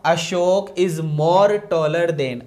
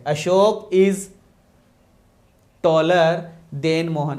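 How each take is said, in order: First: The wrong sentence read out slowly; faulty sentence dictated slowly; slow wrong version. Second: Corrected version with "taller" hit loud; "taller" stressed hard in the correct sentence. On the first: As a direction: lay out the mistake word by word. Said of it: "इसलिए हम more को गलत करेंगे।". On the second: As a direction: punch "taller" loudly, then finish the sentence. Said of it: "केवल taller ही होगा।". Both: Shown as a demonstration.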